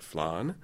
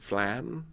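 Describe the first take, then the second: First: It is said with an American, Spanish-like vowel. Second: It is said with an English vowel. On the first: "I pronounce it flan" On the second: "in England, they pronounce it flan"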